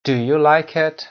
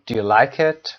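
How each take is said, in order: First: Loud, higher "Do you", fully pronounced; stressed auxiliary. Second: "do you" reduced, weight moved to "like"; unstressed auxiliary. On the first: Teacher showing learners the careful question, stressed "Do". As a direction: hit "Do" clearly before "like it". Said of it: "یه وقتی استرس میگیره و یا استرس نمیگیره". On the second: Teacher showing learners the casual question, unstressed "do". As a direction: pass lightly over "do", land on "like". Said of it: "به این شکل". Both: Shown as a demonstration.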